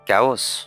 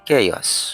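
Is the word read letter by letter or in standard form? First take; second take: letter by letter; standard form. First: The word is sounded out following its spelling. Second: The word is said in its standard pronunciation. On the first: The speaker calls it wrong. "No" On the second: The speaker calls it right. "সঠিক উচ্চারণ হচ্ছে কেয়াস"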